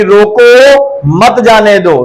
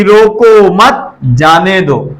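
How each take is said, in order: First: Drawn-out रोको, break, then मत जाने दो as one phrase; slow demo, split right after रोको; pause after रोको. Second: रोको मत together, break, then जाने दो; slow demo, split right after मत; pause after मत. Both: Shown as a demonstration. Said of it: "देखिए कितना अंतर है".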